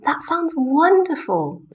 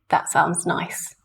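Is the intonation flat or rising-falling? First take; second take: rising-falling; flat. First: The voice jumps high and falls. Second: The voice stays flat throughout.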